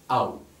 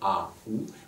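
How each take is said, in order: First: The two vowels merge into a single syllable. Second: The two vowels are said as separate syllables. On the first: The speaker calls it right. "mais A ou" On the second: The speaker calls it wrong. "on ne dira pas"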